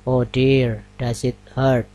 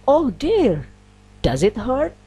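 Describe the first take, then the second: First: It is said flat, with no intonation emphasis. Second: It is said with lively, surprised intonation. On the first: It does not express surprise. The speaker calls it wrong. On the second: The speaker is genuinely surprised. The speaker calls it right.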